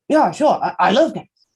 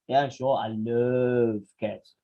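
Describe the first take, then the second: First: It is said in a sincere, genuine tone. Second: It is said in a sarcastic, mocking tone. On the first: The speaker really likes cats. "If you really like cats" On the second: The speaker actually hates cats. "somebody who actually hates cats"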